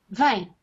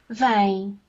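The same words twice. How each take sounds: First: It is said as a firm order. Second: It is said as a gentle request.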